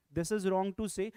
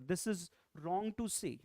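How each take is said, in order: First: Louder, insistent "This is wrong to say"; firm emphasis. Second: Said in the usual way. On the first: Shown as a demonstration. Teacher insists to students, louder and firmer. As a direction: press hard on "is" to drive the point home.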